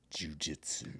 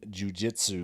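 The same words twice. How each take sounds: First: The first syllable is stressed too heavily. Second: The first syllable has normal, light stress. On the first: The speaker calls it wrong. "too much emphasis on the first syllable" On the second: The speaker calls it right. "Said it right that time, buddy"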